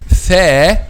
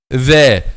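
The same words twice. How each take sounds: First: The th sound is voiceless, without vocal cord vibration. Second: The th sound is voiced, with vocal cord vibration. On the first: "you will not feel a vibration of the vocal cords" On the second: "This one is voiced because when you pronounce it, you will feel a vibration of the vocal cords"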